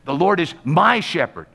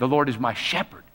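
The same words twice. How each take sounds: First: The stress is on the word my. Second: The stress is on the word shepherd.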